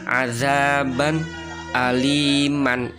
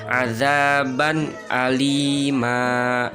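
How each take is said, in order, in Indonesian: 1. Kata terakhir berakhir dengan bunyi n. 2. Kata terakhir berakhir dengan vokal panjang. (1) "ini cara membaca sesuai dengan teksnya" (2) "sesuai dengan hukum tajwid"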